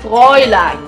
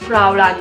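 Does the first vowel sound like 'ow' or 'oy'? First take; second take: oy; ow. First: The first vowel sounds like 'oy' in boy. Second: The first vowel sounds like 'ow' in cow. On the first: The speaker calls it right. "it is Fräulein" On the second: The speaker calls it wrong. "It is not Fraulein"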